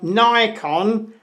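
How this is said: The name is said the way Americans say it. "as the Americans call it"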